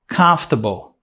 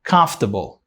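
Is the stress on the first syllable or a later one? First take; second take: first; first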